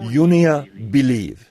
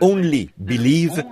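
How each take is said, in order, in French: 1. Le premier mot se prononce 'yonia'. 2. Le premier mot se prononce 'only'. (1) "ils disaient" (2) "au lieu de prononcer"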